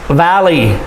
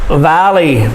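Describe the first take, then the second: The two takes are said the same way.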